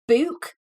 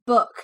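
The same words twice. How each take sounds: First: It has a Newcastle northeastern English vowel. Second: It has a standard southern English vowel.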